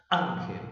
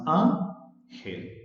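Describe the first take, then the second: First: "Ángel" as one word, weight on "Án"; "Ángel" joined up as ÁN-gel, the end falling away; stress on first syllable. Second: "Ángel" split slowly as án-gel; "Ángel" with a clear gap between án and gel; broken into syllables. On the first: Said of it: "el acento está en la sílaba A". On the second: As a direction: say "Ángel" as two separate syllables. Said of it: "Ángel tiene dos sílabas". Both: Shown as a demonstration.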